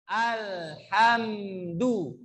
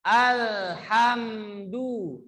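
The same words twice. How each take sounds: First: "Alhamdu" drawn very slow with mouth wide open. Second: "Alhamdu" drawn very slow and called out; slow loud Alhamdu. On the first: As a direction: stretch "Alhamdu" out slowly, jaw open. ("Alhamdu" dibaca panjang dan pelan) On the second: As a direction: chant "Alhamdu" long and full. ("Alhamdu" dilantunkan panjang dan lantang) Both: Shown as a demonstration. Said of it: "membuka mulut kalian".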